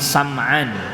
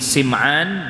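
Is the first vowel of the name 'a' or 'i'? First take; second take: a; i. First: The first vowel is an 'a' sound. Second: The first vowel is an 'i' sound. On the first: "dibaca fathah sinnya" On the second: "dengan dibaca kasrah sinnya"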